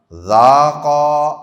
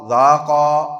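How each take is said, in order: First: ذاقا stretched slowly, long final alif, louder; ذاقا with the final alif held long; drawn-out recitation. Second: Said in the usual way. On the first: Shown as a demonstration. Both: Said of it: "آخر میں جو الف ہے".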